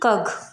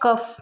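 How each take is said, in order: First: The word ends with a g sound. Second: The word ends with an f sound. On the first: The speaker calls it wrong. "ना कि कग" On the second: The speaker calls it right. "कफ बोलेंगे इसको"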